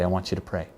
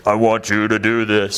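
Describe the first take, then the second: First: Much softer and lower, gently spoken; a low, hushed, simple request; quiet, calm voice. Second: A slow, mock-grand voice of God, lightly voiced; an almighty command, hinted at rather than boomed; booming divine voice. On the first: Retold or imitated. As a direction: say it softly, like a voice over your shoulder. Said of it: "in about that tone and about that pace". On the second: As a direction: play God as some magnificent power, only a little. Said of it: "some crazy ... some magnificent power".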